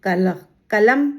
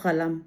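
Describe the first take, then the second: First: Said in the usual way. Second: कलम with its first sound made deep in the throat; throaty Arabic-style first consonant in कलम; nukta pronunciation. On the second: Shown as a demonstration. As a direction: start कलम from the back of the throat, lower and softer. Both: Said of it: "इनके उच्चारण में फ़र्क हो जाता है".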